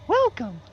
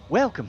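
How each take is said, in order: First: It is said in a squeaky Mickey Mouse voice. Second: It is said in a normal, non-squeaky voice.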